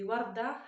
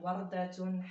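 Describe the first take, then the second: First: The word ends without any -tun ending. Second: The word ends with a pronounced -tun ending. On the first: "on n'entend pas le ta à la fin" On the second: "On n'a pas besoin de dire Wardatun"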